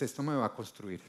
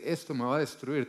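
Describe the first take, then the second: First: "Esto me va a construir" said softer and lower, settled on "me"; calmly turning destruir into construir; quiet confident reframe. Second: Said in the usual way. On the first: Shown as a demonstration. Preacher contrasting words, softly declaring "construir". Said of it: "tú dices". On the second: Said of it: "en lugar de decir".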